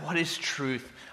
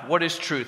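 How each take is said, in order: First: It sounds longing and wistful. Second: It sounds indifferent and uncaring.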